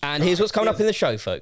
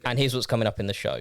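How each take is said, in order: First: It is said with a bigger, emphasized opening. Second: It is said in a flat, plain way.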